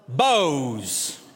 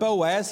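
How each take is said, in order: First: The name is one syllable rhyming with nose. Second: The name is said with two syllables. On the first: This is a pronunciation used by some locals. "here in Western Kentucky, there's some that would call it Bose" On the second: This is the speaker's own usual pronunciation. "while I would pronounce that word Boaz"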